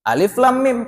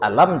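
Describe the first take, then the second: First: Three separate letter names are spoken. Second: It is spoken as one short word. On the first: The reader has studied with a teacher. The speaker calls it right. "Kalau baguru" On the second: The reader never studied with a teacher. The speaker calls it wrong. "Kalau orang tidak baguru"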